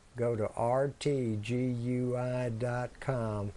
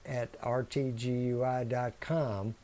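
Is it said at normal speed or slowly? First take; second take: slowly; normal speed. First: It is said slowly. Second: It is said at normal speed.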